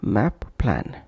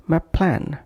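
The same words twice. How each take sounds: First: MAP, break, PLAN, both p's sounded; separate words. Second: MAP PLAN joined on one p; linked consonants. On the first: Teacher showing what to avoid, separate words. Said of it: "instead of". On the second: Teacher showing the correct connection, linked consonants. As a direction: flow "map" into "plan" with a single p. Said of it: "pronounced as". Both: Shown as a demonstration.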